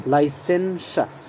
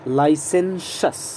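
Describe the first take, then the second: The two takes are said the same way.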